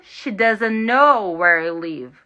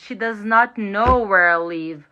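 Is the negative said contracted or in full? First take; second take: contracted; full. First: The negative is contracted into one short word. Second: The negative is said in full, as separate words.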